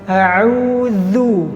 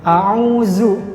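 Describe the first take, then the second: First: The middle consonant is a voiced th. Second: The middle consonant is a plain z. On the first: The speaker calls it right. "yang benar adalah kita menggetarkan, meletakkan ujung lidah ke gigi seri bagian atas" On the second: The speaker calls it wrong. "diganti huruf za biasanya"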